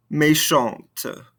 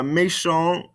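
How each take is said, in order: First: "Méchante" falling onto a released T; sounded ending consonants. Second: "Méchant" left open on the nasal vowel; no T at the end of "Méchant"; silent ending consonants. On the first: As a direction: let the T of "Méchante" be heard. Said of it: "makes us pronounce those ending consonants". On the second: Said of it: "these ending consonants". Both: Shown as a demonstration.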